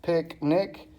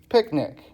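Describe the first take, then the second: First: "picnic" split as pic, nic, ending on a rise; syllable by syllable. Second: Said in the usual way. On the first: Shown as a demonstration. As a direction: break "picnic" into two separate beats. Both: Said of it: "two syllables".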